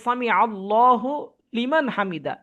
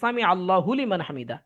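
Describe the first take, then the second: First: The phrase is broken up with a pause. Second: The phrase flows smoothly without a break. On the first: "ভেঙ্গে বলতেছে" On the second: "একটা ছন্দ মিল দিয়ে এইভাবে বলা হচ্ছে"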